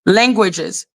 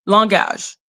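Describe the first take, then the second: First: "Languages" said in English, LANG-gwi-jiz; English pronunciation. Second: "langage" said in French, lan-GAHZH; French pronunciation. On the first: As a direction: stress the first syllable of "Languages", with a gw. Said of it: "in English, languages". (« Languages » prononcé à l'anglaise) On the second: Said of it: "in French, we say langage". (« langage » prononcé à la française) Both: Shown as a demonstration.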